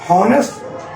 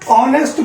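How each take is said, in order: First: The word begins with an h sound. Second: The word begins with a vowel sound. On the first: "हॉनेस्ट लिखा गया है" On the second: "ऑनेस्ट बोला जाता है"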